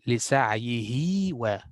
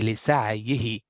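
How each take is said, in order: First: The word ends on a lengthened oo vowel. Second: The word ends on a short vowel. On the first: The speaker calls it right. "I will say" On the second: The speaker calls it wrong. "But if I'm continuing, I will not say"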